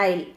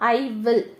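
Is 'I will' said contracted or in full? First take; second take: contracted; full. First: The words are merged into one short syllable. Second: Both words are said fully and separately. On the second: "ஐ வில் தான் எப்படி சொல்லலாம்"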